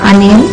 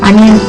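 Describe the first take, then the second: Both takes have the same delivery.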